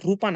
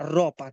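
First: The vowel before p sounds like u. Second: The vowel before p sounds like o. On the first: The speaker calls it wrong. "না রূপা না" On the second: The speaker calls it right.

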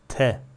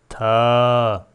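First: The vowel is short. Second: The vowel is long. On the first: "Bu harf tek başına nasıl okunur?" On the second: "Yanına bir elif gelirse"

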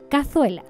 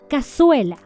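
First: The z is sounded like th. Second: The z is sounded like s. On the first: "Sin ceseo" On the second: "con ceseo"

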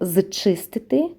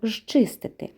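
First: It is said as spelled, starting with 'z'. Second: It starts with a hushing 'zh' sound. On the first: "пишемо зчистити" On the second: "чуємо «жчистити»"

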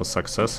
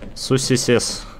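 First: The word is said as 'suck-sess'. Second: The word is read out letter by letter. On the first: The speaker calls it right. "как правильно, типа саксес" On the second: The speaker calls it wrong. "я вот сусисес так и читал"

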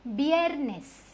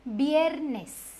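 The two takes are said the same way.

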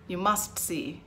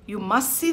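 First: The final sounds of the words are fully spoken. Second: The final sounds of the words are dropped. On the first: The speaker calls it right. "I've got to say" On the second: The speaker calls it wrong. "I'm being inarticulate"

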